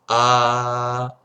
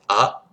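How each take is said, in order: First: The vowel is drawn out longer. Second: The vowel is said briefly. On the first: "en voyelle longue, ça sera A. Vous voyez, on va prolonger un peu plus" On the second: "en voyelle courte, c'est A"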